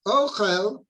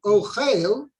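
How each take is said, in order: First: Ochel said as OH-chel, first syllable stressed. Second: Ochel said as o-CHEIL, second syllable stressed. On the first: Teacher shows the noun Ochel, stressed on the first syllable. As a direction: lean on the OH in Ochel. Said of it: "which has the emphasis on the first syllable". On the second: Teacher contrasts the verb Ochel, stressed on the second syllable. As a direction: land the weight on CHEIL in Ochel. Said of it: "the emphasis is on the second syllable". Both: Shown as a demonstration.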